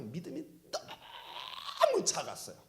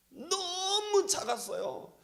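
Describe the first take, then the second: First: Said in the usual way. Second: 너무 lifted much higher and drawn out slowly, falling at the end; stress on 너무. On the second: Shown as a demonstration. 제자들의 작은 믿음을 강조하며, high slow stress on 너무. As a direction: lean hard into 너무, slow and high.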